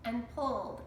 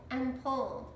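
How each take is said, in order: Both takes have the same delivery.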